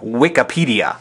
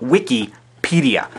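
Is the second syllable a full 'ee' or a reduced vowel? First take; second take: reduced vowel; full 'ee'. First: It is split as wik plus apedia, vowel reduced. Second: It is split as wiki plus pedia, full ee. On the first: The speaker calls it wrong. "the mix occurred at the apedia and the wik" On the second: The speaker calls it right. "the mix occurs after wiki and then pedia"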